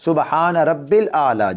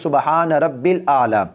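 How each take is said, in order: Both takes have the same delivery.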